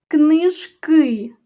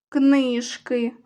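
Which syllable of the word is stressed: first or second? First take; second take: second; first. First: The stress is on the second syllable. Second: The stress is on the first syllable. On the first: It refers to many books. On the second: It refers to one book.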